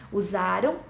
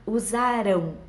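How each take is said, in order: First: "Usaram" stressed on "za", with a light unstressed "ram"; past-tense stress. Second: "Usarão" with the weight on the final "rão"; stressed future ending. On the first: Teacher contrasting past with future, stress on "za" in "Usaram". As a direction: keep the ending of "Usaram" weak. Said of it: "indica o presente. É, o passado". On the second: Teacher giving the rule for future, final stress on "Usarão". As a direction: land firmly on the last syllable of "Usarão". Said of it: "O futuro é com ão". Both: Shown as a demonstration.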